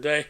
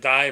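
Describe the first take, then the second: First: The vowel sounds like the word 'say'. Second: The vowel sounds like the word 'eye'. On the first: "but they say Guru, Guru Day" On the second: "I would have pronounced that Die"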